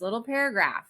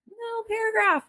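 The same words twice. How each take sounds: First: Said in the usual way. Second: Much higher pitch on "little"; tiny high voice. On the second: Real, not acted. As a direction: shoot "little" up high to show how small it is. Repeats it to stress smallness.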